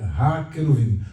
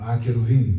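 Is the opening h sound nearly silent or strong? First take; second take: strong; nearly silent. First: The opening h sound is clearly pronounced. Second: The opening h sound is barely pronounced. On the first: This is the classical Hebrew pronunciation. "eu vou falar no hebraico clássico" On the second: This is the modern Hebrew pronunciation. "no hebraico moderno também, esse H... perde a força e não é pronunciado praticamente. Eles falam"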